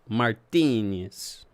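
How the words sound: The name is said with an Italian-sounding accent.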